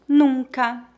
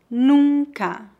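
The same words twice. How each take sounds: First: It is spoken at a natural pace. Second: It is spoken slowly and carefully. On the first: "2 vezes mais naturalmente" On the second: "Uma vez mais devagar"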